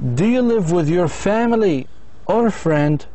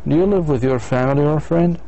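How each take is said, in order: First: The voice rises on family, falls on friend. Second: The voice rises twice, ending high. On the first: It asks the listener to choose one item. "إذا بدي أخيره" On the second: It asks for a yes or no answer. "الآن بدي أسأل yes no question"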